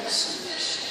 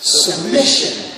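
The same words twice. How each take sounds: First: Hushed, breathless whisper of the word. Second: Slow say-along. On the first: Preacher leads the congregation in a whispered submission. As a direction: let Submission fall to a bare whisper. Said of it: "Whisper, okay?". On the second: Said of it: "Everybody say it with me". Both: Shown as a demonstration.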